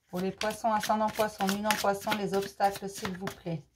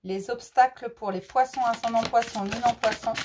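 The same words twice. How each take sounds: First: Softer, hushed plea to the cards; quiet card invocation; murmured invocation. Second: Said in the usual way. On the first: Real, not acted. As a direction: murmur the question to the deck like a ritual.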